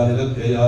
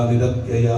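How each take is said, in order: Both takes have the same delivery.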